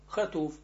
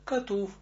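First: The word starts with a raspy kh sound. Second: The word starts with a hard k sound. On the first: The speaker calls it right. "Мы говорим хатув" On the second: The speaker calls it wrong. "а не катув"

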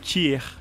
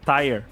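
First: The word is said with a French accent. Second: The word is said with an English accent.

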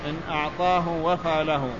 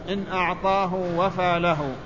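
The two takes are said the same way.

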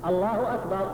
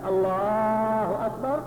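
First: The vowel after the L is kept short. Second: The vowel after the L is drawn out long. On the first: The speaker calls it right. "الحذف ألا تمد الألف التي بعد اللام" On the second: The speaker calls it wrong. "لو مددت ما بعد اللام"

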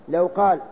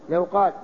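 No difference in how they are said.

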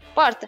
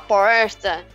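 First: It is said with a São Paulo city accent. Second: It is said with a São Paulo interior accent. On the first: "O paulistano mesmo, ele fala porta" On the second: "isso é do interior"

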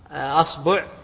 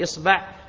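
First: The word begins with the vowel a. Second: The word begins with the vowel i. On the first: "تفتح الهمزة" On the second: "ثم تكسر الهمزة"

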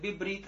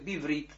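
First: The middle consonant is a b sound. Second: The middle consonant is a v sound. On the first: This is the correct form others use. "Правильно они говорят бибрит" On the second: This is the form the reader personally uses. "а я говорю это биврит"

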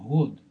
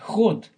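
First: It begins with a voiced h sound. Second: It begins with a harsh kh sound. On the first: The speaker calls it right. "а год, используя латинскую букву. А" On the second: The speaker calls it wrong. "Не ход с х"

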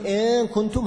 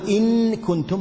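First: The n merges completely into the following k. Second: The n is pronounced fully and clearly with nasalization. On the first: "هذا إدغام" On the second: "هذا إظهار بغنة"

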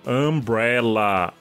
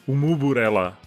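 First: It is said as plain English umbrella. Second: It is said with extra vowels between consonants. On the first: The speaker calls it wrong. "Você fala assim" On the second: The speaker calls it right. "Na verdade, teria que ser umuburela"

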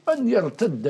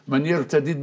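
First: The final d sounds merge into one doubled sound. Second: The final d sounds are split into two. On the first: "بالتشديد" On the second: "بفك الإدغام"

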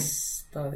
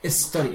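First: The word starts directly with the S sound. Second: The word starts with an added E vowel sound. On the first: The speaker calls it right. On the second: The speaker calls it wrong. "algo a nosotros nos hace sacar la E"

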